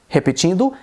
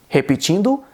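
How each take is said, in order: No difference in how they are said.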